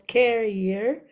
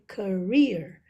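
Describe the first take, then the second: First: The stress is on the first syllable. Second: The stress is on the second syllable. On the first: The speaker calls it wrong. "instead of putting the stress on the first syllable carrier, it's it's not correct" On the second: The speaker calls it right. "So the the stress would be in the second syllable"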